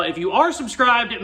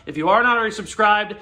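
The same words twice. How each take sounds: First: "are" punched higher, against the previous case; stress on ARE. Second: "not" picked out as the key word; stress on NOT. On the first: Host turning to existing subscribers, stress on "are". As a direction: hit "are" with a jump in pitch. Contrast with those not subscribed. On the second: Host to viewers not yet subscribed, stress on "not". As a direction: lean on "not" to single out newcomers. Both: Real, not acted.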